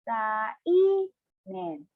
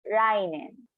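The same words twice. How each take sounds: First: The word is said slowly, syllable by syllable. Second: The word is said at normal speed.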